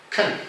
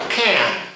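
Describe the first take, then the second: First: Can. reduced to an unstressed kn; the weak, reduced Can; weak form of can. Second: Can. said in full as kan, with an open a; a full, stressed Can; the dictionary form of Can; strong form of can. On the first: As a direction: swallow Can. into a short schwa. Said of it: "This is the weak form". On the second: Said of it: "it's the standard pronunciation". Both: Shown as a demonstration.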